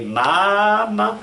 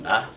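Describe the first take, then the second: First: "mama" high, loud and long, climbing; wrongly accented mama. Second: "ma" short, in the usual pitch; Spanish stress on ma. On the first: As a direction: exaggerate the accent on "mama", dragging it upward. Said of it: "We don't say". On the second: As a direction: say "ma" briefly the Spanish way, without stretching. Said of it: "But in, in Spanish". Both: Shown as a demonstration.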